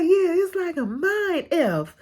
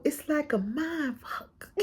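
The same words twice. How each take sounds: First: Quoting it again, swapping the curse for F; a light mock of her, cursing bleeped; censored requote. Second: Soft, slow mock of her quote; muttering the curse back softly; hushed quoted curse. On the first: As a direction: repeat the line, cleaned up with a wry laugh. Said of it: "And she was just like". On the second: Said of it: "she literally just started cursing".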